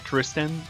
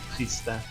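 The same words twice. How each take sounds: First: The name is said with English pronunciation. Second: The name is said with French pronunciation. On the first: "Not too sure how to pronounce it in English" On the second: "In French, it would be Tristan"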